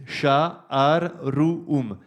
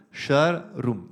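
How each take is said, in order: First: "Sha, ar, ru, um" read as separate syllables with breaks between them; each sign of "Sha, ar, ru, um" sounded on its own. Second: "shar, rum" split into just two syllables; "shar" and "rum" joined into two beats; two-syllable reading. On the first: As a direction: spell out "Sha", "ar", "ru", "um" one at a time. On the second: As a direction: read "shar" then "rum" as two chunks. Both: Shown as a demonstration. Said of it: "les trois premières de manière phonétique".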